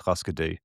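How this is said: The name is said with American pronunciation. This is how people in the US say the band name. "whenever I've heard the band name said by Americans"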